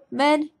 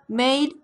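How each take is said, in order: First: The vowel is a short, flat 'e' sound. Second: The vowel is a gliding 'ay' sound.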